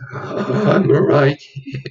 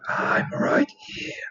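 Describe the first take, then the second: First: It is said in a loud, echoey voice. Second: It is said in a whispered voice.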